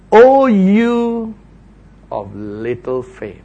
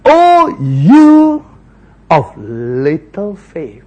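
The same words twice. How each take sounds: First: Gentle reproach. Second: Rebuke. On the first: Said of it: "Verse thirty-one". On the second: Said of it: "Jesus rebuked him". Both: Acted.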